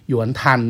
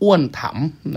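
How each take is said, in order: First: The name is said in a Mandarin reading. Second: The name is said in a Thai reading. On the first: "สำเนียงจีนจริงๆเรียกว่าหยวนทัน" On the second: "อันนี้สำเนียงไทยนะครับ"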